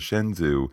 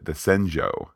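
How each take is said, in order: First: The name is said in the everyday way. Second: The name is said in the more careful way. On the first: The speaker calls it wrong. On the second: The speaker calls it right.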